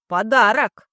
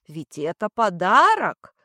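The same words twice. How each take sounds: First: Подарок said loud and pointed; stress on подарок. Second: Said in the usual way. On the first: Acted. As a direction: hammer the word подарок. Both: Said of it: "Слышите?".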